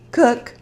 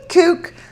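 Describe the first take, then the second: First: The name rhymes with book. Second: The name rhymes with spook. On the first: This is how the speaker now says the name. "that's why I was just calling it that" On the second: This is how the speaker first read the name. "when I first got it, I called it Kook"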